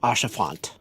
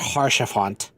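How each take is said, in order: First: The name starts directly with a vowel. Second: The name starts with an h sound. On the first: The speaker calls it right. "Because it's French" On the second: The speaker calls it wrong. "it's not Harshafont"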